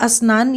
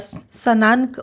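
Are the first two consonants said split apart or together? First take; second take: together; split. First: The first two consonants are joined together. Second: The first two consonants are split apart. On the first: The speaker calls it right. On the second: The speaker calls it wrong.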